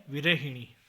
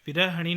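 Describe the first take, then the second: First: Said in the usual way. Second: विरहिणी with a after h; mispronunciation. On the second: Shown as a demonstration. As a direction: say vira-ha-ṇi for विरहिणी. (विरहिणी को विरहणी बोलें) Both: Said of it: "नहीं".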